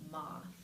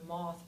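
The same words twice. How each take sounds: First: The vowel is said further forward. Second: The vowel is said further back.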